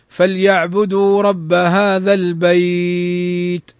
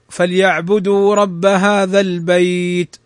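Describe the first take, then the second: First: The vowel in the last word is held moderately. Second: The vowel in the last word is held briefly. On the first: "ويجوز مده أربع حركات" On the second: "يمد مدا طبيعيا حركتين"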